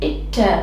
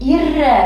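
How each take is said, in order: First: The cluster is said with a t-like stop. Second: The cluster is said with an r sound. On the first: The speaker calls it right. "இதை நம்ம இட்ட இட்ட இப்படித்தான் உச்சரிக்கணும்" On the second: The speaker calls it wrong. "இர்ற இர்ற இப்படித்தான் உச்சரிக்கணும்னு நினைப்போம்"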